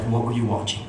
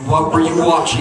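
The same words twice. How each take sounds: First: Stern mom. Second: Loud, raised accusing demand; angry mom. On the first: Mom confronting kids at the TV, controlled sternness. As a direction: imitate a suspicious mother keeping it level. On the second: Mom interrogating kids after scriptures, loud anger. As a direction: imitate a mother losing her patience. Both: Retold or imitated. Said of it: "had fire in her eyes".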